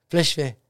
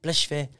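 The two takes are said the same way.

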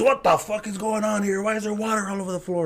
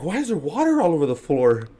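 First: High-pitched, indignant imitation; angry dad. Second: Higher-pitched questioning; puzzled stepmom. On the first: Dad gets up to water everywhere, angry. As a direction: demand answers as a fed-up father. Dad storms out demanding answers. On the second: Retold or imitated. Stepmom finds him splashing water, puzzled demand. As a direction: imitate a stepmom demanding an explanation.

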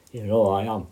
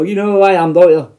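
First: Said in the usual way. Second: Mock menacing. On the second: Shown as a demonstration. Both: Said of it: "I didn't mean it like".

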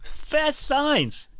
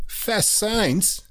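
First: Brand name sung out much higher; hammed-up ad read of the name; echoing the sponsor. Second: Sponsor name lifted high, ad-style; a hint of an ad read; announcing the sponsor. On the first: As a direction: echo it like a cheesy jingle. Cohost echoes sponsor name. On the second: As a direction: sing out the brand name like a jingle.

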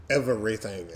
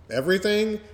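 First: Said in the usual way. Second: Mock disbelief. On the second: Shown as a demonstration.

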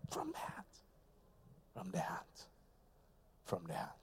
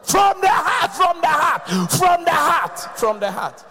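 First: Much softer, lower, almost hushed; soft refrain. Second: High, loud preacher's shout; shouted refrain. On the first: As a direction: drop it to a hush. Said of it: "sudden soft refrain". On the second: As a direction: cry it out from the heart. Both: Real, not acted.

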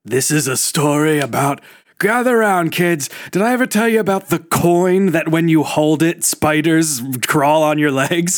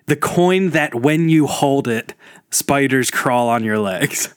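First: Put-on spooky campfire tale for kids; creepy storyteller to kids. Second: Slowed down, spooky tale retold; slow creepy legend telling. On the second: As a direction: drag out each word like a ghost story. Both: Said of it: "don't bastardize my brilliant bit".

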